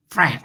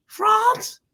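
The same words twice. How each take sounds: First: "France" as Franss with a flat a, low; short A. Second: "France" as Frahnce, high and questioning; long A. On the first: Host giving the other "France", short a as in cat. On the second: Host asking which way you say "France", broad ah. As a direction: offer "France" with a broad ah vowel. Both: Shown as a demonstration. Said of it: "Do you say France or France?".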